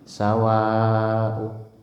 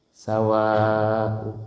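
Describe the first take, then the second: The two takes are said the same way.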